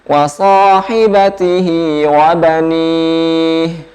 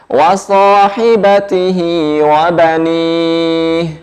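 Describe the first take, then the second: Both takes have the same delivery.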